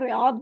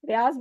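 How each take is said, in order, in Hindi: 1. आखिरी व्यंजन d जैसी आवाज़ करता है। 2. आखिरी व्यंजन z जैसी आवाज़ करता है। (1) "वो इसको रियाद बोलते हैं" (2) "उसको हम लोग तो रियाज बोलते हैं बिकॉज हमारी उर्दू में"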